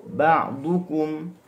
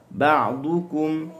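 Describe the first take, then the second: Both takes have the same delivery.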